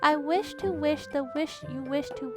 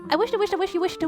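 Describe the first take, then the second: First: The phrase is spoken at a slow pace. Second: The phrase is spoken at a fast pace. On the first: "let me say it slowly once first" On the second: "let me try it faster"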